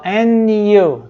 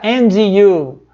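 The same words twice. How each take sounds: First: "And you" with the D of "And" left out; American-style "And you", D swallowed. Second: "and you" with the D of "and" clearly sounded; careful "and you", every sound of "and" kept; D pronounced in "and you". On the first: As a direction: link "And" to "you" as if there were no D. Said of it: "Ele não vai pronunciar esse Dzinho". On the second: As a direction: say "and you" in full, keeping the D in "and". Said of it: "não vai escutar "and you". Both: Shown as a demonstration.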